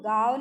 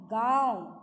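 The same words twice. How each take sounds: First: गाँव said as "gaav", purely oral vowel; wrong, without nasalization. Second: गाँव with आँ sounded through the nose; nasal "gaon" for गाँव; nasalized vowel. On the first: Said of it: "गाँव नहीं बोलेंगे". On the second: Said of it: "इसका स्वर नाक से निकलता है". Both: Shown as a demonstration.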